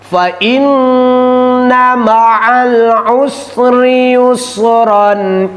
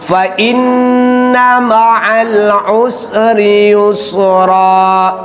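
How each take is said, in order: First: The last word ends with an n sound. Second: The last word ends on a plain vowel. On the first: The reader runs on into the next verse. "Sekarang kita wasol" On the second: The reader stops at the end of the verse. "Itu ketika waqaf"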